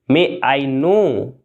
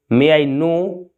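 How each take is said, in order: First: Slow, careful question; slow and clear. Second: Said in the usual way. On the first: Shown as a demonstration. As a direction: model it slowly for learners. (धीरे और साफ़) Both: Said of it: "क्या मैं जान सकता हूँ?".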